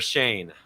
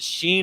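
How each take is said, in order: First: The vowel sounds like 'ay'. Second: The vowel sounds like 'ee'. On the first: The speaker calls it right. "It's Shane" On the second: The speaker calls it wrong. "I've been mispronouncing your name"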